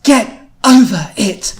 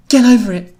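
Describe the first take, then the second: First: Slow, loud, high and emphatic order; very firm. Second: High, loud, firm order. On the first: Louise to the two ninjas, extra firm. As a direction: stretch each word out with heavy firmness. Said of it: "do that in a more firm Louise voice". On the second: Louise to the two ninjas, firm. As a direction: tell them firmly, voice raised. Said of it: "She was very firm as she spoke". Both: A narrator's reading.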